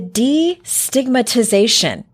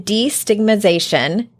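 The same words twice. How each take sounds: First: The long word is said smoothly and clearly. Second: The long word is stumbled over and garbled. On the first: The speaker calls it right. "There you go" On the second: The speaker calls it wrong. "Nope, that's not how you say it"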